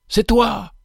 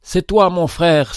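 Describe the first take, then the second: First: Sudden high joyful exclamation; joyful cry. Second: Tender repeat. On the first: Benefactor to the humble convict, a joyful high cry. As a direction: burst out in glad recognition. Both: A narrator's reading. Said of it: "s'écria-t-il".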